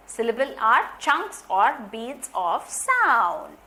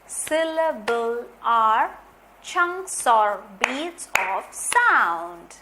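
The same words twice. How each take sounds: First: Said in the usual way. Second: Very slow, each word spaced out; slow, deliberate dictation. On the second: Shown as a demonstration. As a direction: dictate it slowly for the class.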